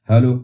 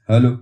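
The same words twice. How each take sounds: The two takes are said the same way.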